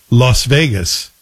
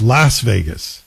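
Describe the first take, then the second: First: LAS Vegas with a broad open "ah" in Las; own way of saying Las Vegas. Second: LAS Vegas with a short flat "a" as in "lass"; critics' way of saying Las Vegas. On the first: Host recalls how they used to say it on air, broad-voweled Las Vegas. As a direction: say Las like "loss" before Vegas. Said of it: "how do I say it?". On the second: Host gives the critics' correction, short-a Las Vegas. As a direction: say Las to rhyme with "gas" before Vegas. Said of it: "They say it's Las Vegas". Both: Shown as a demonstration.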